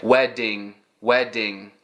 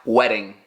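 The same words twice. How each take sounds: First: "wedding" with a full hard D; imitating learner D. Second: "Wedding" with a bland, quick tapped D; correct flap. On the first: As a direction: copy a Brazilian learner saying "wedding". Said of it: "Brazilians here, a lot of times I will hear". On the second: Shown as a demonstration. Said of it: "It's just a bland, generic flap".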